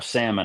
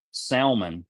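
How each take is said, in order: First: "salmon" said with no L; "salmon" with the L dropped; silent L. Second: "salmon" said with the L sounded; "salmon" with a spoken L; L pronounced. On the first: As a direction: say "salmon" as SAM-un. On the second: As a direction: say "salmon" as SAL-mun, L heard. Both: Shown as a demonstration. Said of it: "however you wanna say it".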